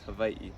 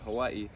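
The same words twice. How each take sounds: First: It is said with a native Hawaiian pronunciation. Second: It is said with a common English pronunciation. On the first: "in Hawaiian language, it's pronounced" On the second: "Most people pronounce it"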